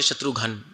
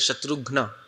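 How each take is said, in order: First: The name ends with a final 'ghan' sound. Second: The name ends with a final 'ghna' cluster. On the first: This is the Hindi form of the name. The speaker calls it wrong. "We don't say Shatrughan. In Hindi we say" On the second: This is the Sanskrit form of the name. The speaker calls it right. "but in Sanskrit"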